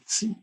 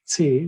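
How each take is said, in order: First: "T" said as the English letter, tee; English letter name "T", rhyming with see. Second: "T" said as the German letter, teh; German letter name "T", tay without a glide. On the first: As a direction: say "T" with a long ee vowel. Slips into English letter name, corrects. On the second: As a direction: say "T" with an ay-like German vowel. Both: Shown as a demonstration.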